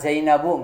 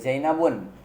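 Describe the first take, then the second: First: The name ends in a plain u vowel. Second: The name ends with an added n sound. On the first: The speaker calls it right. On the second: The speaker calls it wrong.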